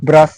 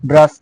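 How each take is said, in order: Both takes have the same delivery.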